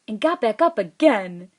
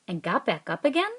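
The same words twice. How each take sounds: First: It is read as an excited exclamation. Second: It is read as a question. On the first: "if it ended in an exclamation point, I would read it like this" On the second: "If it were ending with a question mark, I would read it like this"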